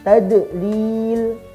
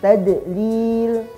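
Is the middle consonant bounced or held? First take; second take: bounced; bounced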